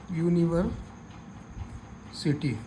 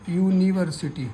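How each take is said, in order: First: यूनिवर्सिटी drawn out slowly and softly, syllable by syllable; slow sounded-out pronunciation. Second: Said in the usual way. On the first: Shown as a demonstration. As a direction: stretch यूनिवर्सिटी slowly and quietly so each sound is heard. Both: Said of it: "इसका हिंदी में उच्चारण देखना है".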